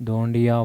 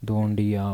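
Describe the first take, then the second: The two takes are said the same way.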